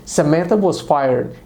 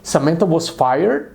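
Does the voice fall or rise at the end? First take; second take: falls; rises. First: The voice falls at the end. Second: The voice rises at the end. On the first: It states a fact. "A pessoa disse" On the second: It questions what was just said. "modificou o tom dela e perguntou"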